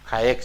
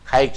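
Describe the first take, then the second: First: The word ends with an 'ek' sound. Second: The word ends with an 'ik' sound. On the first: The speaker calls it wrong. "खाएक चाहिए नहीं बोलता" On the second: The speaker calls it right. "उच्चारण के हिसाब से करेंगे तो this one is correct"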